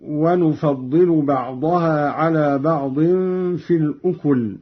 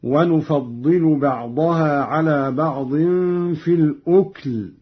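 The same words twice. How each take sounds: First: الأكل with a u after the kaf, ukul; reference reading. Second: الأكل with vowelless kaf, ukl; lightened silent kaf. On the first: Reciter giving the verse before the variant, voweled kaf in الأكل. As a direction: recite الأكل in two syllables, u-kul. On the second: Reciter showing Qalun's lightened reading, silent kaf in الأكل. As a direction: close الأكل straight from k into l. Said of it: "قرأ قالون بإسكان الكاف تخفيفا". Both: Shown as a demonstration.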